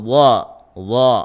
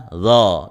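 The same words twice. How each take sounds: First: "dha" with heavy emphatic Arabic sound; dark, o-coloured "dha"; thick dha. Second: Thin, unthickened "dha"; wrong zal sound. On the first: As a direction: say "dha" with the tongue back raised. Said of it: "Itu juga tebal". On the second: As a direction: lower "dha" as a light th in "this". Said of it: "Kalau tidak dinaikkan pangkal lidahnya". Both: Shown as a demonstration.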